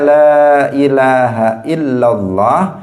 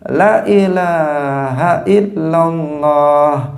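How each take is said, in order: First: The vowel in the first 'la' is long. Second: The vowel in the first 'la' is short. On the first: The speaker calls it right. "la-nya itu panjang" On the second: The speaker calls it wrong. "sekarang menjadi dipendekkan. Dia membacanya begini"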